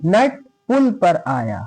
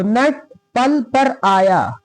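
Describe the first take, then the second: First: पुल read with a short "u", like "pul"; correct vowel reading. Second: पल read with a short "a", like "pal"; wrong vowel reading. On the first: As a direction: say पुल as "pul", slowly word by word. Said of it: "यहां पुल पढ़ा जाएगा". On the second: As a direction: say पल as "pal", drawn out word by word. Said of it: "पल नहीं पढ़ेंगे". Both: Shown as a demonstration.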